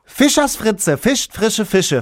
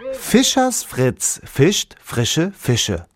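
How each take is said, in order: First: It is said very fast and hurried. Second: It is said at a normal, careful pace.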